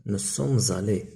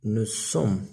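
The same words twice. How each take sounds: First: Very slow, careful model phrase; slow model answer. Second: Slow model answer. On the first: Teacher drawing out the answer for pupils. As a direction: stretch each word for the class. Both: Shown as a demonstration. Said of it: "إذا نقولو".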